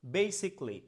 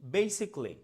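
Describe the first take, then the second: The two takes are said the same way.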